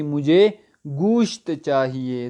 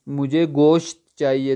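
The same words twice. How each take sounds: First: گوشت said slowly with a u, gusht; correct Persian way. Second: گوشت with an Urdu o, goasht, slowed; the way Iranians will not understand, گوشت as goasht; wrong Urdu way. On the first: Teacher shows students the correct Persian گوشت, slowly. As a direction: stretch گوشت out as goosht, the Persian way. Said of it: "تلفظ صحیح کرنا پڑے گا". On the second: Teacher shows students the misunderstood Urdu گوشت. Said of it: "تو ان کو سمجھ میں نہیں آئے گا". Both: Shown as a demonstration.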